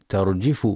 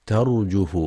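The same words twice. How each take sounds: First: ترجف with the jeem wrongly given a kasra, terjif; ترجف mispronounced with i on the jeem. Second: ترجف with a damma on the jeem, terjuf; ترجف correctly with u on the jeem. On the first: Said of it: "يخطئ من يقرأ ترجف بكسر الجيم". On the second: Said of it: "والصواب ضمها". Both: Shown as a demonstration.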